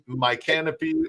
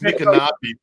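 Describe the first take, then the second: First: It sounds like the words 'my canopy'. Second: It does not sound like 'my canopy'. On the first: "some people say my canopy, like canopy" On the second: "it's it's it's Micanopy"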